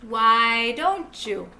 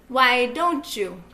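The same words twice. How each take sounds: The two takes are said the same way.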